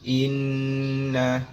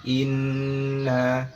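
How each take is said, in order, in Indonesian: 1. Huruf n yang ganda dibaca panjang dan sengau. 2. Huruf n yang ganda dibaca panjang dan sengau.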